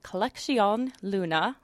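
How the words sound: The name is said with a Spanish accent. "my terrible Spanish accent"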